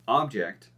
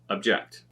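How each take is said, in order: First: The stress is on the first syllable. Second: The stress is on the second syllable. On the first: It is used as a noun. "we're going to do the noun" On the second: It is used as a verb. "then we're going to do the verb"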